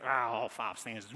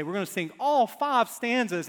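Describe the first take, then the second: First: Low, reluctant grumble; mock congregation groan. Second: Louder, raised announcing voice; imitated hymn leader. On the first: Congregation reacting to a long hymn, mock groaning. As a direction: imitate a dismayed congregation grumbling. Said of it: "and everybody goes". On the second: Song leader announcing the full hymn, loud and emphatic. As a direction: announce it boldly to the congregation. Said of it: "and they say".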